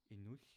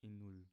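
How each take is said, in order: First: Inuch ending on a hissed fricative, not an l; original Arcanian ending. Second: Inul ending on a plain l; simplified l ending. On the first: Teacher gives the word for goodbye, inuch with fricative ending. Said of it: "the sh sound in goodbye". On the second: Teacher offers learners an easier goodbye, inul ending in l. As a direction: finish inul with an easy l, no fricative. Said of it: "if you don't know how to say". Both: Shown as a demonstration.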